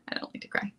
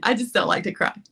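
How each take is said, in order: First: Whispered repeat, much softer. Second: Said in the usual way. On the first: Shown as a demonstration. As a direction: breathe it as a soft aside.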